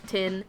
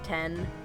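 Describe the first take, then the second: First: The vowel is a short i, like tin. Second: The vowel is a short e, like ten. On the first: "You like you like say tin like tin" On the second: "they say it more like ten"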